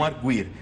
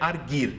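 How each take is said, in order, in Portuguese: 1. O u depois do g é pronunciado. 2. O u depois do g é mudo. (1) "e não" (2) "sem o trema, você teria que ler"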